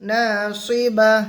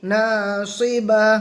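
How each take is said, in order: First: The word ends with a stopped 'h' sound. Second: The word ends with a stopped 'h' sound.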